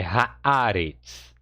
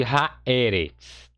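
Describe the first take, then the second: First: Haaretz with "a" after "ha", as ha-AA-retz; altered vowel, correct form. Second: Haeretz with "e" after "ha", as ha-E-retz; slow demonstration of haeretz, the "e" left unaltered; unchanged vowel, incorrect form. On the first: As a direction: slowly draw out the stressed open "aa" in "haaretz". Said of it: "Alterou-se aqui a primeira sílaba". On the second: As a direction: keep a stressed open "e" in "haeretz". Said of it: "Você não tem aqui". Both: Shown as a demonstration.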